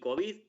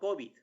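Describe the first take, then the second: First: The stress is on the second syllable. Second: The stress is on the first syllable. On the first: The speaker calls it right. "las palabras que terminan en D tienden a ser agudas" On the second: The speaker calls it wrong. "no vamos a hacer COVID con acento en la O"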